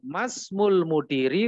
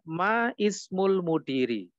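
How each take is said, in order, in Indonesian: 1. Kedua kata menyatu tanpa vokal 'i' yang terpisah. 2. Vokal 'i' yang terpisah dilafalkan sebelum 'smul'. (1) "Jadi langsung masmul mudiri"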